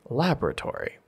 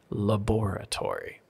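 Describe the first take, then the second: First: The stress is on the first syllable. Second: The stress is on the second syllable. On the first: This is the American pronunciation. "for the U S, we say laboratory. This is why we say the lab" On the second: This is the British pronunciation. "for the U K, it's the laboratory. And the stress is on that second syllable"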